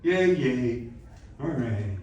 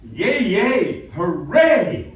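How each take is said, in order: First: Half-hearted cheer, fading away; underplayed cheer. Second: Loud, high-pitched jubilant cheer; big cheer. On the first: Coach showing student the weaker option, half-hearted fading cheer. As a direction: let the cheer sag and trail off. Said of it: "Or is it". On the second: Coach showing student the expletive reading, big loud cheer. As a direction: cheer it out at full voice. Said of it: "there's a way to interpret that". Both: Shown as a demonstration.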